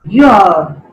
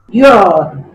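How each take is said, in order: The two takes are said the same way.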